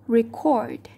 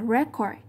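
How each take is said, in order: First: The stress is on the second syllable. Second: The stress is on the first syllable. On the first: It is used as a verb. The speaker calls it right. "ta đọc là record" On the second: It is used as a noun. The speaker calls it wrong. "Thay vì đọc là record, giống như từ bên trên là danh từ"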